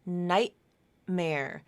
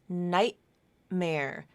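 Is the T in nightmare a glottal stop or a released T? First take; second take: glottal stop; glottal stop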